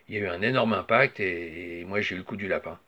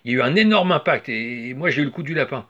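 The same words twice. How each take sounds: First: It is said in a calm, quiet way. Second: It is said in a lively, energetic way. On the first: "une version plutôt calme" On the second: "une deuxième version plus dynamique"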